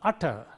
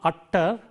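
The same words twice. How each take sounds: First: The t sound is short and single. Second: The t sound is held long, doubled. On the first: The speaker calls it right. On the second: The speaker calls it wrong.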